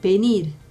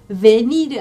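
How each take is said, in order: First: The word begins with a b sound. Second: The word begins with a v sound. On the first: The speaker calls it right. "베랑 똑같으니까" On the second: The speaker calls it wrong. "이게 베니르 아니에요"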